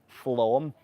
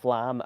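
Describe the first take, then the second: First: The vowel sounds like the one in 'Tom'. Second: The vowel sounds like the one in 'cat'. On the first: It is said the way locals say it. The speaker calls it right. "I think you pronounce it as Flom" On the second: It is read as it is spelled. The speaker calls it wrong. "it's written as Flam"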